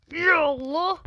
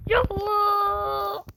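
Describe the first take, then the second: First: Breathy whispered prayer; whispered plea. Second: Slow, high, drawn-out wailing cry; crying-out plea. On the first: Gamer praying before a tough jump, whispered. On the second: Gamer crying out to God mid-jump, wailing. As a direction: wail it to the sky in desperation. Pleading before a hard jump. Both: Real, not acted.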